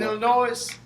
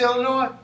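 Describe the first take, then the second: First: The final S is pronounced. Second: The final S is silent. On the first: The speaker calls it wrong. "rather than Illinois" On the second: The speaker calls it right. "we say Illinois ... Because the S is, is silent"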